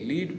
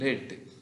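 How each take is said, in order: First: The vowel is a long 'ee' sound. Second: The vowel is a short 'e' sound. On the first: It is the present tense. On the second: It is the past tense.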